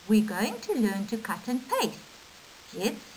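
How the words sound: There is a pause before 'kids'. The kids are being addressed. "with punctuation it becomes"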